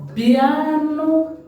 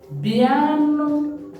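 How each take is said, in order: First: It is said in a warm, affectionate tone. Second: It is said in a warm, affectionate tone.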